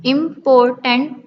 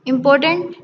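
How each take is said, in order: First: "इंपॉर्टेंट" as im, por, tant with gaps; split into syllables. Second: Said in the usual way. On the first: Shown as a demonstration. Teacher counting three syllables in important, one by one. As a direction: break "इंपॉर्टेंट" into three pieces. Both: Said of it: "three syllable".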